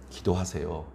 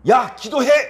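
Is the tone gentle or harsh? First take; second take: gentle; harsh. First: It is said gently and politely. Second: It is said harshly with a raised voice.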